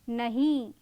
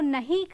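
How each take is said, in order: First: The final vowel is long. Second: The final vowel is short. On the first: "सिर्फ मात्रा में परिवर्तन आ रहा है" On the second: "नहीं का खड़ी बोली रूप होगा"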